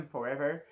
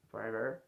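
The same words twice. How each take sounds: First: Said in the usual way. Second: Forever in a lower, mock American accent. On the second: Shown as a demonstration. (forever avec un accent américain) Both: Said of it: "c'est quoi cet accent bien, américain".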